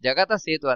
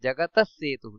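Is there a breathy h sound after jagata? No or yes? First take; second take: no; yes. First: Jagata ends without a breathy h sound. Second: Jagatah ends with a breathy h sound. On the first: The speaker calls it wrong. "ಜಗತ ಸೇತು ಅಲ್ಲ" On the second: The speaker calls it right. "ಎರಡು ಅಲ್ಲಿ ಸೊನ್ನೆ ಇದೆ, ಅದೇ ವಿಸರ್ಗ"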